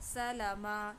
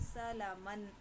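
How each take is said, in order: First: The word ends with a long 'a' sound. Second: The word ends with an 'an' sound. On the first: "जब हम इस पर वक़्फ़ करते हैं तो तनवीन छोड़कर" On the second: "यहाँ पे है सलामन"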